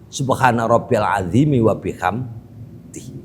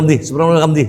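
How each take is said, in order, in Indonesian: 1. Dibaca tidak terburu-buru, setiap bunyi diucapkan dengan jelas. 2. Dibaca cepat, bunyinya saling tersambung. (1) "dibaca yang benar" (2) "Ojo diselek sehingga menghancurkan lafaz huruf-huruf"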